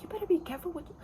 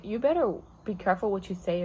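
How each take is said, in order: First: Mock yell. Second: Said in the usual way. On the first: Worker warning a rude customer, high mock yell. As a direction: imitate yourself snapping at a customer, pitched up. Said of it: "I, like, yelled at her". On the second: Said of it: "I was like".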